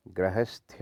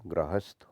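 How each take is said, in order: First: गृहस्थ ending "sthya"; wrong added y. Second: गृहस्थ ending "sth"; correct plain ending. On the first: Teacher showing the error, गृहस्थ with a y ending. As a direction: add a ya to गृहस्थ. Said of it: "नहीं होता". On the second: Teacher correcting it, गृहस्थ with plain sth. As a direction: end गृहस्थ without any y. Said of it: "होता है". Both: Shown as a demonstration.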